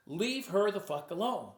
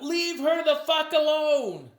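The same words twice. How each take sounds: First: Said in the usual way. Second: A loud, much higher, slow yell; retold yell. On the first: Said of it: "those are the words". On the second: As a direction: shout it from the crowd at the hypnotist. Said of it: "someone yelled out".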